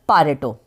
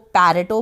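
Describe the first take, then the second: First: The first vowel sounds like the vowel in 'father'. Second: The first vowel sounds like the vowel in 'air'. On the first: This is the closest to the original pronunciation. "ज़्यादा exact और ज़्यादा करीबी pronunciation" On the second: This is one pronunciation used in some places. "कहीं पर इसको पैरेटो बोला जाता है"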